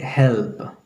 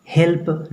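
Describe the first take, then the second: First: हेल्प with a lingering L, tongue on teeth; soft dental L. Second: Said in the usual way. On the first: Shown as a demonstration. Teacher corrects students' example word, soft dental L. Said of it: "बोलेंगे हेल्प". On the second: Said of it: "हेल्प नहीं बोल करके".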